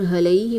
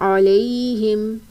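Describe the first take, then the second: First: The word begins with a plain h sound. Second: The word begins with a clear throaty ain. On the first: The speaker calls it wrong. "यहाँ पर हलैहिम नहीं पढ़ना" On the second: The speaker calls it right. "आइन की अदायगी वस्ते हलक से करनी है"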